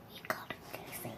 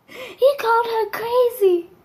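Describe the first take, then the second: First: Voiceless dramatic whisper. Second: High, slow horrified disbelief; dramatic disbelief. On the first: Storyteller repeating dad's fatal mistake, dramatic whisper. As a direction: whisper it in hammed-up dread. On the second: Storyteller shocked at what dad said, dramatic disbelief. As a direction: draw it out as a hammed-up shock. Dreading mom's reaction. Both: Acted.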